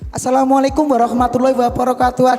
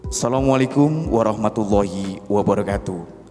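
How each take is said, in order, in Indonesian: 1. Diucapkan dengan nada ceria dan jenaka. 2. Diucapkan dengan nada tegas dan formal. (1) "Kalau kita membawa di acara event kids ya atau acara anak-anak, juga intonasinya beda" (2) "Kalau acara formal, ya intonasinya tegas"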